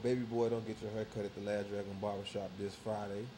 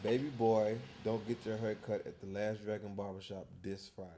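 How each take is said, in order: First: It is said at a normal pace. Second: It is said slowly and deliberately.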